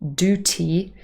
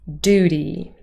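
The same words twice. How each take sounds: First: The second syllable starts with a clear T. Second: The second syllable starts with a soft D. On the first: The speaker calls it wrong. "So it's not duty, that would not be very Americans" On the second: The speaker calls it right. "quite a soft uh, D sound"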